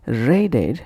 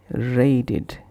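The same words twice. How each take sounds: First: "Raided" ending in an ed vowel, ray-ded; spelt-out ed. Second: "raided" said as ray-did; id ending. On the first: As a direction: say "Raided" to rhyme its end with bed. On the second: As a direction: end "raided" with a short id. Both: Shown as a demonstration. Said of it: "pronounced as".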